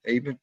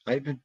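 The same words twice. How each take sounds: First: "Ivan" said closer to EH-van; "Ivan" with a short E, EH-van; name corrected. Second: "Ivan" said with an "eye" sound, EYE-van; "Ivan" with a long I, EYE-van; name misread. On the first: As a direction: soften "Ivan" to EH-van, almost "Evan". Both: Real, not acted. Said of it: "I can't even say your name".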